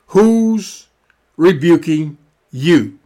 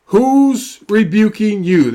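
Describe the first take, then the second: First: Who's held alone, a pause, then rebuking leaned on and slow; broken question, stress on rebuking. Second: Who's pressed hard, the whole question drawn out slowly; slow question, stress on Who's. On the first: Preacher repeats the question to the congregation with a dramatic break before rebuking. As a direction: split it: Who's, beat, then press rebuking. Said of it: "I like to ask questions like that".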